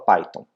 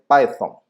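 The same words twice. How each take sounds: First: It is said with a Brazilian Portuguese pronunciation. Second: It is said with an English pronunciation. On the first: This is how people in Brazil say it. "Aqui no Brasil o pessoal fala Python" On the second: This is how English speakers say it. "na verdade a pronúncia correta é Python, né, no inglês"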